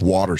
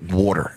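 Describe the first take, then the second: First: It is said in a non-local, neutral accent. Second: It is said in a local East Coast accent. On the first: The speaker calls it wrong. "you don't sound local" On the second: The speaker calls it right. "you have to say it water"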